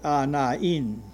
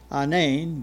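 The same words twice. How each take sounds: First: The marked vowel is sounded as its own syllable. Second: The marked vowel merges with the vowel before it. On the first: The speaker calls it right. "it's supposed to be pronounced by itself" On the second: The speaker calls it wrong. "You don't say"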